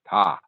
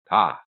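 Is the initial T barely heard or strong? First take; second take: barely heard; barely heard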